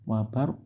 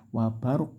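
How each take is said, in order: No difference in how they are said.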